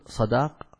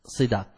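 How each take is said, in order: First: صداق said with an open a on the sad, ṣadāq; صداق, sad voiced with fatha as ṣadāq; صداق with a clear fatha on the ṣ; sadaq with fatha. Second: وصداق said with i on the sad, wa-ṣidāq; وصداق, the sad carries a kasra as ṣidāq; وصداق with a clear kasra on the ṣ; sidaq with kasra. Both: Shown as a demonstration. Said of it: "فيصح بفتح الصاد وكسرها".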